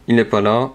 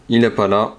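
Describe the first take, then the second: No difference in how they are said.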